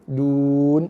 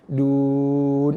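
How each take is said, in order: First: The long vowel is held for two counts. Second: The long vowel is held for four counts. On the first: "dua harakat boleh" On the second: "Ataupun empat"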